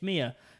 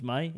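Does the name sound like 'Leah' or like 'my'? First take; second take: [name]; my. First: The name is said with a final 'ah' sound. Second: The name is said like the word 'my'. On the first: The speaker calls it right. "It's Mia" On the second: The speaker calls it wrong. "I thought was my"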